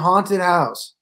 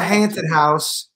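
First: The first vowel sounds like the vowel in 'awe'. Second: The first vowel sounds like the vowel in 'ant'. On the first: The speaker calls it right. "It's a haunted house" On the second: The speaker calls it wrong. "It's not a haunted house"

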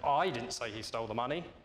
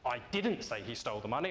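First: The word 'I' is stressed. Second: The word 'didn't' is stressed. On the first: Someone else said it. "Now suggest somebody else did" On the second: The speaker is annoyed at being accused of saying it. "I now seem cross that you think I did"

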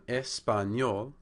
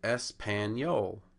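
First: Spanish accent, with the first syllables ending in vowels. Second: American accent, with consonants closing the syllables. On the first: "That's how a native Spanish speaker would pronounce it" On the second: "an American speaking English without any Spanish background might say"

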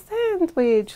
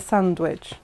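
First: It is said in a put-on voice imitating an advert. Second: It is said in the speaker's normal voice.

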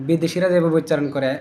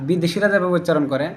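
The two takes are said the same way.

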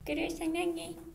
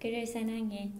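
First: It is said in a cute, coy tone. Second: It is said plainly, without a cute tone. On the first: The speaker calls it right. "귀여웠는데 발음이 사냥해였는데" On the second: The speaker calls it wrong. "안 귀여워 다시"

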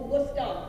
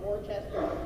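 First: It is pronounced the way locals say it. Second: It is pronounced differently from how locals say it. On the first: The speaker calls it right. "Or Worcester, the locals" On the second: The speaker calls it wrong. "not Worcester"

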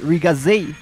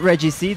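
First: The name is run together into one word. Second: The name is spoken as separate letters. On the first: The speaker calls it right. "that's Riga Z. That's how they call it in Sharp's counterattack" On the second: The speaker calls it wrong. "that's not Red GC"

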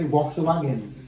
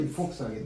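First: The V is said as an English V. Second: The V is said like an F. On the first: "I thought you would say Volkswagen" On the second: "then you say Volkswagen"

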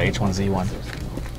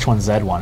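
First: The letter Z is said as zee. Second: The letter Z is said as zed. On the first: This is the American way. "instead of H1Z1" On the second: This is the Canadian and British way. "He wants it to be H1Z1"

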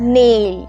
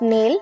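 First: The vowel glides from 'e' to 'ee'. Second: The vowel is a short plain 'e' sound. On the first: The speaker calls it right. "নেইল, not নেল, নেইল" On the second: The speaker calls it wrong. "Not নেল"

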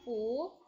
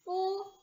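First: The pitch rises from mid to high. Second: The pitch stays high and level.

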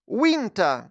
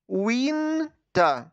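First: The word is said quickly. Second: The word is said robotically, syllable by syllable. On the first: "а тепер швидко" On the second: "а тепер як робот по складах"

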